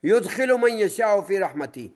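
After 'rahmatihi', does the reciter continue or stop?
stops. The recitation stops after the word rahmati. God admits whom He wills to mercy; wrongdoers get punishment. The speaker calls it right.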